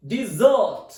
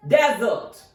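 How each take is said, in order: First: "desert" as di-ZERT, the verb; stress on second syllable. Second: "desert" as DEZ-ert, the noun; stress on first syllable. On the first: Teacher showing the verb "desert", stressed di-ZERT. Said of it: "Its second pronunciation is". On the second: Teacher showing the noun "desert", stressed DEZ-ert. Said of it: "The stress is on first syllable". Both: Shown as a demonstration.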